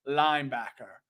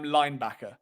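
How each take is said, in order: First: Put-on low American-accented linebacker; attempted American accent. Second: Said in the usual way. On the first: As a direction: drop the pitch for a fake American. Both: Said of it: "I can't say linebacker in American".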